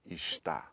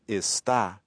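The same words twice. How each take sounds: First: The consonant before the t is an sh. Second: The consonant before the t is a plain s. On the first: "it comes out" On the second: "instead of"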